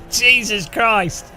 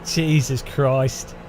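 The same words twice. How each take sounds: First: Stretched exasperated groan. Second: Slow, low and drawn out; tired resigned groan; weary sigh. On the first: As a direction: groan at how bad it is. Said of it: "It's the worst song ever". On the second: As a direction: give up on the song. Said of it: "It's torture". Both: Real, not acted.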